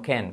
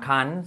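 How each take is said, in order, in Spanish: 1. La vocal es igual a la de 'thank'. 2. La vocal es diferente a la de 'thank'. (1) "sino can, como thank you" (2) "no suena can"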